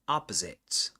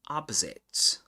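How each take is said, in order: First: It is said in an American accent. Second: The same.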